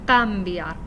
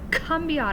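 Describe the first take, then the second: First: The first sound is softened toward a g. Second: The first sound is a hard English k. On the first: The speaker calls it right. "like an opening letter G" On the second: The speaker calls it wrong. "instead of"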